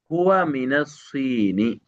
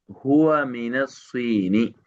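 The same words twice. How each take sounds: The two takes are said the same way.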